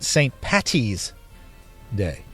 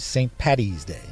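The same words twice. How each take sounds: First: The middle consonant is a T sound. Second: The middle consonant is a D sound. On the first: The speaker calls it wrong. "don't call it Saint Patty's Day. With T's" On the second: The speaker calls it right. "No T's"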